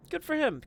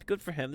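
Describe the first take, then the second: First: Much higher sing-song good for him; high mock praise. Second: Soft dry repeat. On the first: Caster praising the waddling monolith, high and teasing. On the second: Caster repeating praise to himself, quiet and dry. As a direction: drop it quietly, deadpan. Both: Real, not acted.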